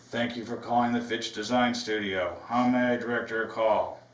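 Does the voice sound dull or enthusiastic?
dull. It sounds flat and unenthusiastic.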